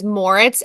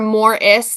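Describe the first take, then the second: First: The name ends with a ts sound. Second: The name ends with a plain s sound. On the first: The speaker calls it right. "my maiden name is Moritz, M O R I T Z" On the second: The speaker calls it wrong. "Moris, like M O R R I S ... I had never got the Z"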